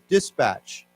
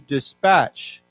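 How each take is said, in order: First: The stress is on the first syllable. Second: The stress is on the last syllable. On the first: It is used as an adjective. "say this first as a 形容词" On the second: It is used as a verb. "the emphasis goes to the last syllable"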